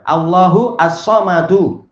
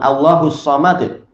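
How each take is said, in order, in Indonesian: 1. Frasa ini diakhiri dengan bunyi vokal. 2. Frasa ini berakhir pada bunyi konsonan mati. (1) "As-samad sebagai khobar" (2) "Tapi kalau berhenti di situ maka apa? Disukun"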